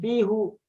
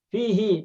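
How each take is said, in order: First: The word ends with a u vowel. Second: The word ends with an i vowel. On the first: The speaker calls it wrong. "tidak menjadi fihu" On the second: The speaker calls it right. "menjadi fihi"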